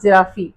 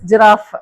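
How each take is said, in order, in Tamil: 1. இந்த வார்த்தையின் கடைசியில் ஒரு உயிர் ஒலி சேர்க்கப்படுகிறது. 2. இந்த வார்த்தை 'f' ஒலியில் முடிகிறது. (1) "not ஜிராஃபி" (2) "but it is ஜிராஃப்"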